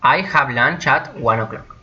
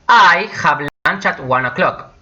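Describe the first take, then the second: First: Said in the usual way. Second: Slightly raised, measured example; unhurried, with a lifted I; slow model sentence. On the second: Shown as a demonstration. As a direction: present it carefully to learners.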